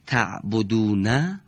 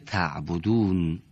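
First: The word ends with a short vowel. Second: The word ends on a bare consonant. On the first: "حرف آخر اونها دارای یکی از حرکات" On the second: "در هنگام وقف اون حرکت به سکون تبدیل میشه"

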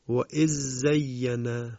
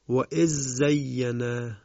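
The two takes are said the same way.

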